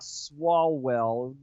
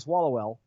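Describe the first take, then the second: First: The name is said slowly and carefully. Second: The name is said fast and run together. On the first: The speaker calls it right. "you only have to say it slowly to get it right" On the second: The speaker calls it wrong. "if you say it fast"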